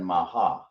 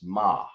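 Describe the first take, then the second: First: The word is drawn out into two syllables. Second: The word stops short after one syllable. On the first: The speaker calls it wrong. "instead of saying maha" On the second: The speaker calls it right. "stopping right there"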